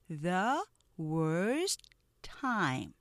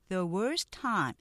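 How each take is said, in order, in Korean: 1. 뚝뚝 끊김. 자음마다 자기 모음이 붙은 음절이 따로 생깁니다. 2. 매끄럽고 빠름. 음절이 몇 개뿐입니다. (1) "스타카토로 발음하실 수 있을 거예요. 이름절식" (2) "빠르게 하면 ... 음절이 적은 거예요"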